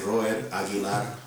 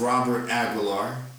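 First: The name is said with a Colombian accent. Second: The name is said with an American accent. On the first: "My mom would say ... Colombian" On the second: "That's the American pronunciation"

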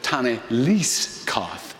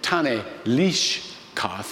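First: The middle word is said with an 's' sound. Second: The middle word is said with an 'sh' sound. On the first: The speaker is Samaritan. "they make it into an S sound" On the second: "he said Tane Lish Kath"

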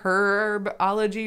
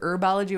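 First: The word begins with a pronounced h sound. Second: The word begins with a silent h. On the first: This is the British way of saying it. "in the British, like, accent, they say the age" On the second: This is the American way of saying it. "but we fucking don't"

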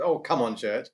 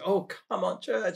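First: It is said in a critical, frustrated tone. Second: It is said in a gentle, encouraging tone.

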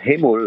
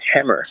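First: The word ends with an L sound. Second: The word ends with an R sound. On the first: It names seafood in Korean. The speaker calls it wrong. "not hamul like seafood" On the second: It names a tool. The speaker calls it right. "but hammer like a tool"

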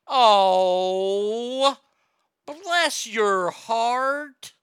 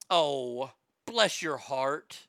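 First: The phrase is stretched out long and slow. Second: The phrase is said at a normal, brisk pace.

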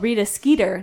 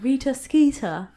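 First: The two names end in different sounds. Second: The two names end in the same sound. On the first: "which we called Rita Skeeter ... So it didn't rhyme for us" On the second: "not Rita Skeeter"

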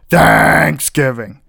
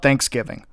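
First: The stress falls on the first syllable. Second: The stress falls on the second syllable.

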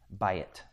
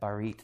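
First: The word has a y sound in the middle. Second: The word has an r sound in the middle. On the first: The speaker calls it right. "It's by it" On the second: The speaker calls it wrong. "I'm saying it wrong"

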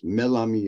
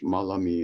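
First: The word is said the Turkish way. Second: The word is said the Arabic way. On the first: "Melami in Turkish" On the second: "Malami in Arabic"

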